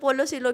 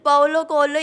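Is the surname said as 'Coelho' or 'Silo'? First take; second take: Silo; Coelho. First: The surname is said as 'si-lo'. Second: The surname is said as 'ko-el-yo'. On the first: The speaker calls it wrong. "उन्होंने सब ऐसे बोलते" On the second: The speaker calls it right. "ये एग्जैक्ट"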